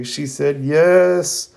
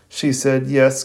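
First: High and very slow, drawn out in mock tears; mock tearful. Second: Said in the usual way. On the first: Lee telling Guy Sensei Sakura said yes, in hammed-up joyful tears. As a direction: stretch out "She said yes." like a hammed-up sob of joy. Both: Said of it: "Rock Lee immediately starts crying".

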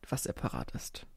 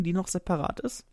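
First: Whispered playful aside. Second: Said in the usual way. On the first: Real, not acted. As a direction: drop to a secret whisper. Repeats "separat ist" as whispered aside.

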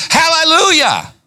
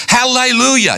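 First: Hallelujah flung out high and ringing; real excited high shout of hallelujah. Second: Said in the usual way. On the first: Real, not acted. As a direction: burst out with joy. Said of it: "I'm trying not to get excited". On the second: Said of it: "You know that little word".

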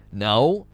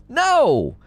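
First: Said in the usual way. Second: Higher, emphatic outburst; exasperated refusal. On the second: Real, not acted. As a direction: shoot the idea down, exasperated.

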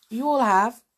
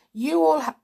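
First: Said in the usual way. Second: Hiccups. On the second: Real, not acted. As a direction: cut off by a hiccup. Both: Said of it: "I've got the hiccups now".

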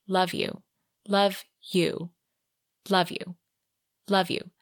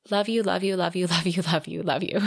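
First: Each "Love you" separate, with a long pause after it; spaced-out repetition. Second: "love you" run together in an unbroken string; rapid repetition. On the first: Repeated declaration, spaced out. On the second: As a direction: reel off "love you" without pausing. Repeated declaration run together. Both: A narrator's reading.

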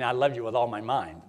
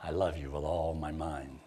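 First: Said in the usual way. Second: A lover murmuring I love you with all my mind, low and soft; mock tender, low and soft. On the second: Shown as a demonstration. Low, soft, mock-romantic. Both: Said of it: "think how that sounds to some".

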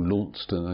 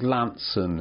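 First: "Launceston" said in full as written, LAWN-ses-ton; the name read as it is spelled, a small correction; spelled-out pronunciation. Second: "Lanson" said the local way, two short syllables, LAN-son; the town's name the way locals say it, "Lanson"; local Cornish pronunciation. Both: Shown as a demonstration. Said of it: "as you pronounce it".

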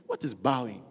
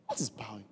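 First: Said in the usual way. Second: Hushed, breathless question; soft unvoiced whisper of Absalom. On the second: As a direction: whisper it like a secret aside.

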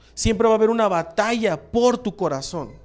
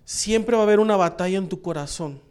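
First: Por said with weight, contrasting en; rephrase, pressing por; stress on por. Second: Said in the usual way. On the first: Shown as a demonstration. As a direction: lean on the word por in por tu corazón. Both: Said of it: "Te lo voy a poner de otra manera".

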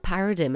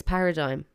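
First: Paradigm ending in "dim"; wrong pronunciation. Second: Paradigm ending in "dime"; correct pronunciation. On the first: Showing listeners the mistake, paradigm mispronounced as "para-dim". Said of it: "It's not paradigm". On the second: Giving listeners the correction, paradigm said as "para-dime". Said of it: "it's paradigm". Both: Shown as a demonstration.

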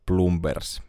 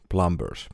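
First: Plumbers as "PLOOM-bers", with a u sound; unsure pronunciation. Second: Plumbers as "PLUM-bers", with an open a sound; second pronunciation attempt. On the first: Reading out a series title, unsure how Plumbers is said. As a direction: say Plumbers as spelt, with u and a voiced b. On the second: Correcting a series title aloud, Plumbers said with an a. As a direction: try Plumbers with an "ah" vowel, b still sounded. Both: Real, not acted. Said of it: "miten se lausutaan".

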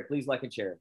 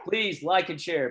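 First: Said in the usual way. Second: Bright, pitched-up request; upbeat plea. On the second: Shown as a demonstration. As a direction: sell it like a host. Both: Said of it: "That's what my crew is telling me".

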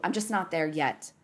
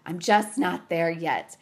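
First: Said in the usual way. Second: Slow, weighty stress on "just not there yet"; emphatic repeat. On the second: Real, not acted. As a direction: say "just not there yet" slowly, each word leaned on.

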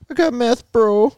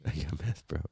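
First: Very high, slightly loud squeak; high put-on voice. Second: Deep, very soft disguised voice; low put-on voice. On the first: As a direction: push it way up high. Trying out disguised voices. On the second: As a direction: drop it low and quiet. Same line again, dropped low.

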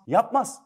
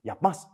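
First: "Yapmaz." punched high and loud, rising; emphatic no. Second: Said in the usual way. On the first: Shown as a demonstration. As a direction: hit "Yapmaz." high and hard. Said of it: "repeated answer, second take emphatic". ("Yapmaz." yüksek ve vurgulu) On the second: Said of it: "repeated answer, first take".

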